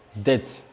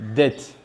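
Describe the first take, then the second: First: The B sound is silent. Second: The B sound is silent.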